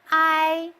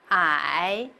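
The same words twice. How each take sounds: First: The pitch stays level and high. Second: The pitch dips down, then rises. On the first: "The first tone is flat" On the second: "The third tone is first down and then up"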